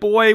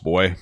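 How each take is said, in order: First: It is said in a light, playful tone. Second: It is said in a stern, demeaning tone. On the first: A friendly, joking expression of surprise. "that's pretty chill" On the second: A degrading command that talks down to someone. "Like that's not even kidding"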